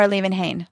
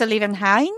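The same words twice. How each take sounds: First: Liebenhain with the last syllable as "hayn"; long A at the end of Liebenhain. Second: Liebenhain with the last syllable as "hine"; long I at the end of Liebenhain. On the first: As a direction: say Liebenhain ending to rhyme with "rain". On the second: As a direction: say Liebenhain ending to rhyme with "mine". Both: Shown as a demonstration. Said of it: "ask him if it's a Liebenhain".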